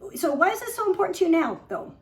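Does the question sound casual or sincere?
casual. It is asked in a casual, superficial tone.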